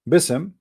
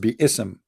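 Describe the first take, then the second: First: The parts are run together as one word. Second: The parts are kept apart as separate syllables. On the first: The speaker calls it wrong. "which is wrong by the way" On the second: The speaker calls it right. "It is bi-ism"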